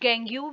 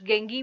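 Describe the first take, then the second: First: The word ends with a "yoo" sound. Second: The word ends with an "ee" sound. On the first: "कुछ गेंग्यू भी इसको पढ़ते हैं" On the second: "कुछ गेंगी भी पढ़ते हैं"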